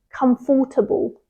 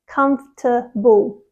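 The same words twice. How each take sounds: First: The word is said with four syllables. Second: The word is said with three syllables. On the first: The speaker calls it wrong. "they think it should be comfortable" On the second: The speaker calls it right. "It has three syllables"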